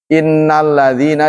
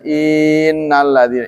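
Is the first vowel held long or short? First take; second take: short; long. First: The first vowel is kept short. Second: The first vowel is stretched long. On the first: The speaker calls it right. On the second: The speaker calls it wrong.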